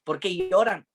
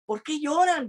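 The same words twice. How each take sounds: First: Said in the usual way. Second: High, aching question to weeping friends; pained question. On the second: Retold or imitated. Pablo asking his weeping friends why they cry, pained.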